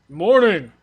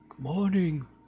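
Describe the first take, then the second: First: The greeting is said loudly. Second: The greeting is said more quietly.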